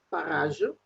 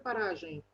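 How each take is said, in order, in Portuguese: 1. A palavra é pronunciada à maneira francesa. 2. A palavra é pronunciada à maneira portuguesa. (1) "Temos a palavra parage em francês" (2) "Em português fala de paragem"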